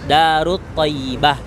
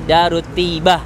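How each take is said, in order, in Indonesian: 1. Kata kedua diucapkan lengkap sebagai 'Thayyibah'. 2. Kata kedua disingkat menjadi 'Tibah' saja.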